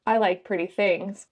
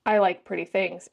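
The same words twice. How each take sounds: First: A touch of conspiracy; conspiratorial. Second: Lightly put-on rich baritone; rich lilting baritone. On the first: A narrator's reading. Stranger leaning in toward the heroine, mildly conspiratorial. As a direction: lean in, confiding slightly. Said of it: "he said in a conspiratorial manner". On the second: Shown as a demonstration. Reader trying the stranger's deepest voice, a hint of baritone. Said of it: "let me try my richest, deepest, lilting baritone voice".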